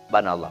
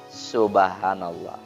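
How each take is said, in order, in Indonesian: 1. Diucapkan dengan cepat dan terpotong-potong. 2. Diucapkan dengan lambat dan utuh. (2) "dia nikmati setiap bacaan itu"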